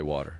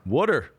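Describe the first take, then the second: First: Water is said the standard way, not wooder. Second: Water is said the Philly way, like wooder.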